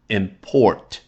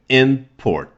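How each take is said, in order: First: The stress is on the second syllable. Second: The stress is on the first syllable. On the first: It is a verb. "读成动词的时候应该是import" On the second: It is a noun. "注意这个import 是名词啊"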